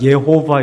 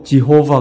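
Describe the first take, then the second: First: The name begins with a y sound. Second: The name begins with a j sound. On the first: "예호바 이렇게" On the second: "우리가 영어로 지호바 그래"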